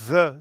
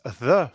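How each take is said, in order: First: It starts with a z sound. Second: It starts with an English th sound. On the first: "French people pronounce it the because the the sound do- doesn't exist in uh, French" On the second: "some English sounds, like the"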